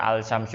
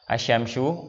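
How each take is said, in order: First: The L is pronounced clearly before the sh sound. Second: The L is silent, merged into the sh sound. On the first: The speaker calls it wrong. "Nggak dibaca al syamsu, enggak, itu salah" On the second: The speaker calls it right. "walaupun ada huruf alif lam pada kata tersebut namun tidak terbaca"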